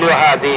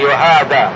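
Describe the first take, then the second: First: The word ends in an 'ee' vowel. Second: The word ends in an 'ah' vowel. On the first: The speaker calls it wrong. "لا تقل يهادي" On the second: The speaker calls it right. "يهادى أي كأنه أخذ من الجانبين بكتفيه"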